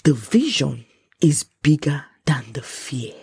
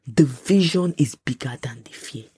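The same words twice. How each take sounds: First: "vision", "bigger", "fear" each weighted slowly; drawn-out, deliberate stress on "vision"; slow emphasis. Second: Said in the usual way. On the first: Real, not acted. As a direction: say "The vision is bigger than the fear" slowly, pausing between phrases. Key line repeated for emphasis.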